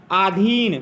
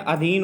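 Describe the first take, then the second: First: आधीन with a long first vowel, aa-dheen; teacher stretches the first vowel of आधीन; wrong pronunciation demo. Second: अधीन with a short first vowel, a-dheen; teacher says अधीन with a short opening a; correct pronunciation demo. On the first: Teacher to students, showing the wrong long vowel. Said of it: "तो ये अशुद्ध है". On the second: Teacher to students, modelling the short vowel. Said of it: "अधीन होता है". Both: Shown as a demonstration.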